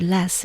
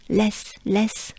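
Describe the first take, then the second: First: Said in the usual way. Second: Less with a French accent; French-accented less, crisp and separate. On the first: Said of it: "the word less in English". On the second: Shown as a demonstration. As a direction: say less as a French speaker would. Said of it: "with a French accent".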